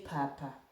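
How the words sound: The word begins with a voiceless p sound. "In Bukusu, we say papa"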